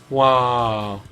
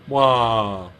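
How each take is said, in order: Both takes have the same delivery.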